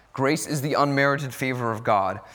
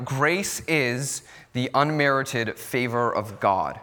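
First: Said in the usual way. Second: Grace is the unmerited favor of God, said slowly for note-taking; slow dictation. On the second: Shown as a demonstration. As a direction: dictate it slowly so they can write it down. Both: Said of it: "you can write this down".

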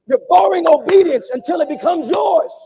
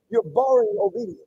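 First: Loud, stressing borrowing; emphatic shouted return; shouted emphatic repeat. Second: Said in the usual way. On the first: Real, not acted. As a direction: drive the repeat home louder. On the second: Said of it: "repeat louder".

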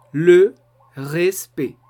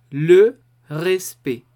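First: "Le respect" with a pause after "Le" and a throaty R; French R. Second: "Le respect" slow, guttural French R. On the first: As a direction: split "Le" off, then "respect" with a uvular R. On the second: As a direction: say "Le respect" slowly with a throaty R. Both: Shown as a demonstration. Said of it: "La segunda palabra va a ser respect".

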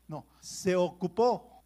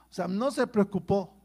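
First: "no, se ocupó" drawn out slowly, landing on "ocupó"; slow down and lean on "se ocupó"; preacher's slowed punchline; slow emphatic punchline. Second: Said in the usual way. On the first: Acted. Preacher contrasts worry and action.

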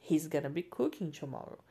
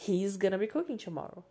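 First: He's run together into one quick syllable; contracted he's. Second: Said in the usual way. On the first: Shown as a demonstration. Teacher shows the contraction sounds more harmonious. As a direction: join he and is smoothly into He's. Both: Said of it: "se você juntar o is com o he".

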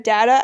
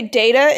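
First: Data said "DAT-uh"; short-A data. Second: Data said "DAY-tuh"; long-A data. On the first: Friends argue over the word, data with short A. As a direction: say "data" with a flat A as in "dad". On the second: Friends argue over the word, data with long A. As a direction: say "data" with an AY first. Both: Shown as a demonstration. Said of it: "instead of data".

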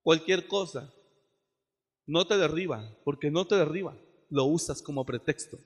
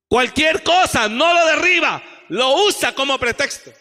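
First: Said in the usual way. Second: High, loud rebuke; shouted repeat. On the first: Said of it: "first plain take". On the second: Real, not acted. Preacher rebuking half-hearted servants, shouting. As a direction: hurl the accusation at them. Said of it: "repeats louder after plain take".

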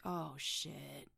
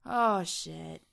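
First: Hushed, dawning dread; a low "Oh, shit" to yourself; quiet dread. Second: Louder, alarmed "Oh, shit"; alarmed outburst. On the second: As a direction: blurt it out in alarm. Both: Retold or imitated. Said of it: "you're like".

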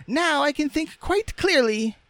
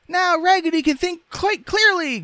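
First: Very high, squeaky rag doll; Raggedy Ann's voice. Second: Loud, extremely high squeaky cry; dolls crying out. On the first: Rag doll with her head mended, squeaky. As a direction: chirp it in a piping falsetto. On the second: Dolls rejoicing for their friend, crying out. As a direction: shout it in doll falsetto. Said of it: "cried out the dolls". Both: A narrator's reading.

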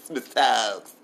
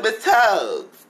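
First: Said in the usual way. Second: "Miss Tugs" called out, higher and louder; calling her name. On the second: Retold or imitated. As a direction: call "Miss Tugs" across the room, drawn out. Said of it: "I said".

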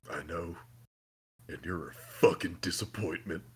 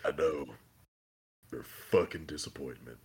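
First: Low, soft mock Soldier Boy sneer; lightly voiced cold put-down, lower and softer; Soldier Boy quote. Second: Low, soft mock Soldier Boy sneer, repeated; lightly voiced cold put-down, lower and softer; Soldier Boy quote. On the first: Retelling Soldier Boy's insult to Homelander, low soft sneer. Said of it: "He's like". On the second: Quoting Soldier Boy to Homelander again, low soft sneer. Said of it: "retold quote again".

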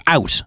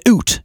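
First: Said in the usual way. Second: "oot" for out, vowel like boot; Canadian "oot". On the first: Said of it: "instead of". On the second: Retold or imitated. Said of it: "they'd say "oot" instead of "out".

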